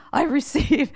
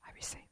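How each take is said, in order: First: Said in the usual way. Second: Barely audible whisper; hushed compliance. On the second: Retold or imitated. Wife answers after being shushed, whispering meekly. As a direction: shrink it to a tiny whisper.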